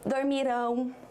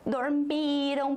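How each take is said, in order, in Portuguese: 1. A sílaba tônica está na última sílaba. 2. A sílaba tônica está na penúltima sílaba. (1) "está no final" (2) "a sílaba forte sempre foi antes da sílaba final"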